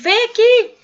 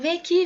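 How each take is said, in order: First: It is shouted loudly and urgently. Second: It is said at a normal, calm volume. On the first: "quando a gente grita" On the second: "Quando a gente fala assim"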